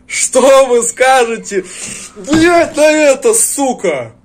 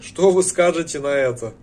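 First: Slow, loud, higher taunting shout. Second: Said in the usual way. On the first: Real, not acted. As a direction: shout the question slowly as a taunt.

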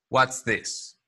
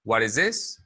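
First: "What's this" in two syllables with clear ts; contracted form. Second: "What is this" in three syllables, t tapped; full form. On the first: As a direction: say "What's this" joined, falling at the end. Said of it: "Ambas son correctas". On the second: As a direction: say "What is this" linked, rising at the end. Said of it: "Es lo mismo". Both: Shown as a demonstration.

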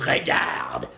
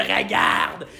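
First: "regarde" said lightly, near whispered; French word. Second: "regarde" growled low like a monster from deep in the throat. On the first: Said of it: "Look in French is". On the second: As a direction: snarl "regarde" like a beast. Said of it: "you gotta act like a fucking monster". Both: Shown as a demonstration.

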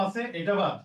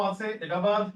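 Both takes have the same delivery.

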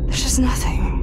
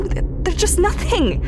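First: "just" leaned on, the line whispered and falling; whispered despair. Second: "nothing" falling away, voice pitched higher and breaking; higher, stumbling despair. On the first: Scout sinking into a whisper as she admits it to herself. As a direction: repeat it again under your breath, defeated. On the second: Lonely scout confessing to her log, pitched-up despair. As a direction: let it crack up high on "nothing". Despair over empty wasteland. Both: Acted.

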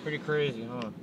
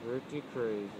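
First: Talking round a cigar; words through a cigar clamped in teeth; cigar in mouth. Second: Soft, mumbled round a cigar; cigar in mouth. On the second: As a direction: mutter it with a cigar between lips. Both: Real, not acted. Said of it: "I have a cigar in my mouth".

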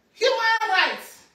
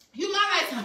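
First: Proclaimed. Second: Said in the usual way. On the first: Shown as a demonstration. Repeats, bigger, after a breath.

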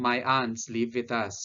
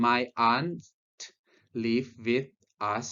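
First: "My aunts live with us" run together without pauses; native-style linked reading. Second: "My aunt ... live with ... us" in separate chunks, pauses between; Thai-style separated reading. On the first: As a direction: link "with us" into one joined sound, "wi-thus", in one unbroken phrase. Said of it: "ฝรั่งก็จะอ่านว่า". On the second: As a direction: break "My aunt live with us" apart, with a gap before "live" and before "us". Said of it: "คนไทยเราจะอ่าน". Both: Shown as a demonstration.

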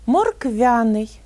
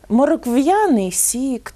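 First: Slow морквяний with softened V, no glide; soft V. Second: Slow «моркв'яний» with hard V and a y-glide; hard V misreading. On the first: Teacher corrects the sign, soft V in морквяний. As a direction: say морквяний slowly as morkvya-nyi. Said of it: "м'яко вимовляємо". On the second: Teacher reads a misspelt sign, hard V in «моркв'яний». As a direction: say «моркв'яний» slowly as morkv-ya-nyi. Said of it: "можна побачити такі надписи". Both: Shown as a demonstration.

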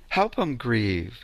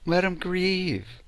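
First: Slow "Help 'em grieve" with a rise on "em"; slow, rising. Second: Slow, drawn-out "Let 'em grieve"; slow repeat. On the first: Healer to listeners, slowly adding to the advice. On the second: Healer to listeners, repeating the advice slowly. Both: Shown as a demonstration. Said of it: "Let 'em grieve".

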